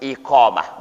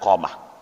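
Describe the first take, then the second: First: The word begins with an 'i' vowel. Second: The word begins directly with the 'q' sound. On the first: The speaker calls it right. "bab sifatul iqamah" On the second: The speaker calls it wrong. "bukan qamah"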